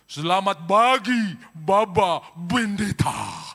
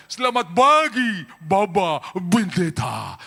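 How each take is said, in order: First: Arab accent, slow and loud, "pagi" said "bagi", "Bendeta" with B; booming Arab accent greeting with B for P. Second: Higher, louder Arab accent, slow, "pagi" said "bagi". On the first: Pastor mimics Arab greeting in Arab accent. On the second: Pastor repeats Arab greeting in Arab accent, louder. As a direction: stretch out "Baba Bendeta" in an Arab accent. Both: Shown as a demonstration. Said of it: "Semua P jadi B".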